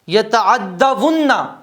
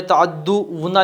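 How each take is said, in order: First: The doubled d is followed by an 'a' vowel. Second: The doubled d is followed by a 'u' vowel. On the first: The speaker calls it right. "दाल पे ज़बर होगा" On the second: The speaker calls it wrong. "पेश के साथ, दाल पे पेश है, ये गलत है"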